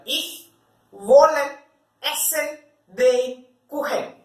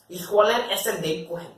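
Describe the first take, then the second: First: Word-for-word German, slow with pauses; teacher spelling out "Ich wollen essen den Kuchen" slowly, word by word. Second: Said in the usual way. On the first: Shown as a demonstration. Teacher dictating each German word slowly to students. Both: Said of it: "And translate it to German".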